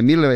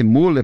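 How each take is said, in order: First: "Miller" with an ee, MEE-ler; "Miller" with an i in the first syllable; German-style pronunciation. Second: "Müller" with a plain u, MOO-ler; "Müller" with an oo in the first syllable; pronounced as spelt. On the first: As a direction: say "Miller" with i in place of ü. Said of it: "se pronuncia Miller". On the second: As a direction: say "Müller" as a Brazilian reads it, MU-ler. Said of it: "se escreve Müller". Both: Shown as a demonstration.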